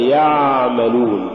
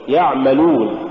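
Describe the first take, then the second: First: يعملون drawn out as yaa-malun; long loose vowel swallowing the ayn in يعملون; overstretched first syllable. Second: يعملون with a short, balanced ayn; brief ayn closing the first syllable of يعملون; correct ayn. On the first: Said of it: "ولا تقل". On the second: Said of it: "قل". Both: Shown as a demonstration.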